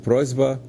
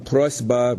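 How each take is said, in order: First: The consonant before b is a voiced z. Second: The consonant before b is a voiceless s.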